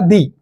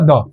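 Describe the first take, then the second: First: The vowel is a long 'ee' sound. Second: The vowel is a short 'uh' sound. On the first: "इसको पढ़ूंगा दी" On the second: "इसको मैं पढ़ूंगा द"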